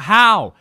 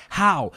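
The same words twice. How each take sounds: First: Very loud, high-pitched mock scream; imitated scream. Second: High, raised-voice disbelief; a first exasperated outburst, imitated; imitated baffled teacher. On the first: Son imitates teacher screaming over the projector, loud disbelief. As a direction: yell it in utter disbelief, imitating. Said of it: "She screams out". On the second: Son imitates teacher baffled by the projector, exasperated disbelief. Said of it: "She's like".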